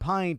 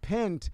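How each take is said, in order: First: The vowel is a long 'eye' sound. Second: The vowel is a short 'i' sound. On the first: "the hard eye" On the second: "The soft eye"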